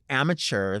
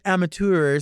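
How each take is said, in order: First: The word ends with a 'chur' sound. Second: The word ends with a 'tur' sound. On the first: It sounds ugly. "that's like chur. That's ugly" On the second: It sounds like showing off. "Get out of here with that"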